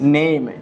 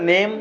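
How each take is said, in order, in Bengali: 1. স্বরধ্বনিটি e থেকে i-এর দিকে গড়িয়ে যায়। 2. স্বরধ্বনিটি একটি সাধারণ, একক e ধ্বনি। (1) "এটা হচ্ছে এইম উচ্চারণ" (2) "নেম বলে আসলে ভাই কোনো শব্দ নাই"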